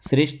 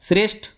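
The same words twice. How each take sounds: First: The final consonant is unaspirated, without a breath. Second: The final consonant is aspirated, with a breath.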